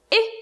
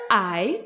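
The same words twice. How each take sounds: First: I pronounced "ih", a short lone vowel; short i sound. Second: Said in the usual way. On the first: Shown as a demonstration. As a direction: give I its short sound, as in ink. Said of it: "I sound". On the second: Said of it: "Letter I makes the".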